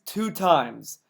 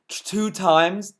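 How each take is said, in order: First: Said in the usual way. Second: Incredulous. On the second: Real, not acted.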